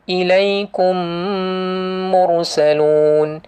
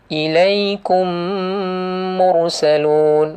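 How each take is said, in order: Both takes have the same delivery.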